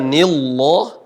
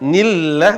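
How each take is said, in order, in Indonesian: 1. Bunyi lah itu tebal, dengan vokal seperti o. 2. Bunyi lah itu tipis, dengan vokal seperti a. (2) "dibaca tarkik atau tipis seperti huruf A"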